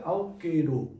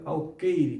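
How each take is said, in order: First: The word ends in an 'o' sound. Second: The word ends in an 'e' sound. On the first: The speaker calls it wrong. "Não diga alqueiro" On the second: The speaker calls it right. "Diga alqueire, que é a palavra correta"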